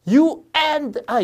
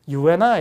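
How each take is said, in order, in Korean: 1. 'and'는 강하게 발음해요. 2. 'and'는 약하게 발음해요. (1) "이런 게 아니라" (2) "이렇게 and는 되게 떨어뜨려요"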